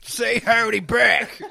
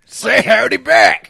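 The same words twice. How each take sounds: First: Put-on higher, slow, laughing cowboy accent. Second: Higher and much louder, slow cowboy shout; loud cowboy accent. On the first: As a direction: coax them to greet back, cowboy style. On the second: Acted. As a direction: demand the greeting back like a rowdy cowboy. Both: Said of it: "he's doing the cowboy accent".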